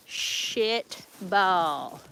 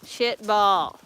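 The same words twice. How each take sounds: First: SHIT stretched long, then BALL; "Shit ... ball", each word lengthened; drawn out. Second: Said in the usual way. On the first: Real, not acted. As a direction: slowly draw out "Shit ball". Same words repeated, stretched out.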